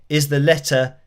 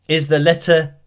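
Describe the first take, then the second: No difference in how they are said.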